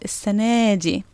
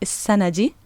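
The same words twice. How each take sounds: First: The noun's feminine ending is extended. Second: The noun's feminine ending is not extended. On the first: The speaker calls it right. "but I said" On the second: The speaker calls it wrong. "I didn't say"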